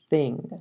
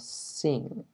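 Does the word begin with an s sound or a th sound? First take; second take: th sound; s sound. First: The word begins with a soft th sound. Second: The word begins with a hissing s sound. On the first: The speaker calls it right. "No es sing, no hay un silbido. Es thing" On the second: The speaker calls it wrong. "Muchas veces yo escucho a los latinos diciendo como sing"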